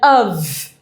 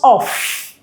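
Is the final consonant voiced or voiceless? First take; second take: voiced; voiceless. First: It ends in a voiced v sound. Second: It ends in a voiceless f sound. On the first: The speaker calls it right. "If you're not saying of, v, v, voice, voice, you're not pronouncing it correctly" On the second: The speaker calls it wrong. "not of"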